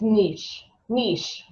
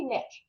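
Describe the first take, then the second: First: Niche as "neesh"; long-vowel niche. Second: Niche as "nitch"; short-vowel niche. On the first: Retold or imitated. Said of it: "Someone on the airplane was saying". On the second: Shown as a demonstration. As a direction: say niche to rhyme with pitch. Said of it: "we say niche".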